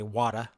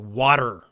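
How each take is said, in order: First: The final R is soft, barely pronounced. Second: The final R is strong and clearly pronounced. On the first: "So we don't say wada" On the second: "we say water. Er, it's a strong er sound"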